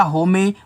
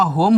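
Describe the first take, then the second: First: होमे with the silent final e sounded out; novice misreading. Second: Said in the usual way. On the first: Retold or imitated. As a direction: misread it as होमे, two syllables ending in "ay". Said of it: "जिसको नहीं पता होगा वो पढ़ लेगा". (नौसिखिये की तरह होमे, आख़िरी ए बोलकर) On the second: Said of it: "आप अच्छे से पढ़ोगे उसको".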